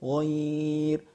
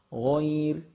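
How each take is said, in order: First: The vowel is held for six counts. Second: The vowel is held for two counts.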